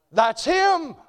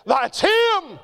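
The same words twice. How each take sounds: First: Loud, high preacher's declaration; proclaiming. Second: Higher and louder shouted repeat; preaching shout. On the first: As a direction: ring it out to the congregation. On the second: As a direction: drive it home with a shout. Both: Real, not acted.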